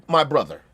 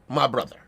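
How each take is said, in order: First: It sounds forced and put-on. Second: It sounds forced and put-on.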